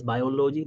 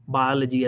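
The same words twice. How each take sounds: First: "biology" said as by-o-LO-jee; mispronounced "biology". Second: Said in the usual way. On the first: Shown as a demonstration. Coach mimics foreign doctors' mistake, "biology" as bio-LO-jee. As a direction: give "biology" full O sounds, bio-lo-jee. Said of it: "they, they talk like this". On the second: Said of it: "This is not how we talk in the U S".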